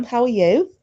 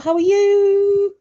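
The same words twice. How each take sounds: First: Said in the usual way. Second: Much higher, slow drawn-out how are you; sing-song greeting. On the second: Real, not acted. Host greeting Sam arriving in the chat, sing-song drawn-out.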